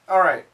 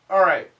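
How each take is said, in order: First: The L sound is dropped into the R. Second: The L sound is dropped into the R.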